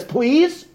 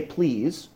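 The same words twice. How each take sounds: First: Much higher, rising plea; lifted, pleading voice. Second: Said in the usual way. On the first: Retold or imitated. Brother pleading with the judge to hug that lady, lifted voice. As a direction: raise the voice into an imploring plea, imitating him. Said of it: "lifts his voice, and he's weeping a little bit". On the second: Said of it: "in his normal voice".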